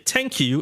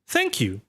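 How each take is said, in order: First: The word starts with a hard T sound. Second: The word starts with a soft TH sound. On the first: The speaker calls it wrong. "they would say thank you instead" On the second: The speaker calls it right. "of saying thank you"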